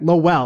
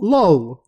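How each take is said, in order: First: The name is said the way it is spelled. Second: The name sounds like the word 'lol'. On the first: This is how the speaker reads it. "That's how I'm gonna say it" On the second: This is how the characters say it. "they just say like lol"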